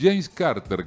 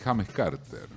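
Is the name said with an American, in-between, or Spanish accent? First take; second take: in-between; Spanish. First: It keeps English clusters but uses moderate Spanish melody. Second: It is read with plain Spanish sounds. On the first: The speaker calls it right. "hay un James Carter que te respeta la trabazón" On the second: The speaker calls it wrong. "alguna bestia te, ... si esto es España, ... te dicen"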